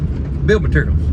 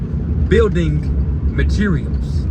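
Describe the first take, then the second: First: It is said in a relaxed Southern drawl. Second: It is said carefully with every syllable clear. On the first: The automated phone system does not recognize it. The speaker calls it wrong. "your natural voice" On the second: The automated phone system recognizes it. The speaker calls it right. "You got to say building materials"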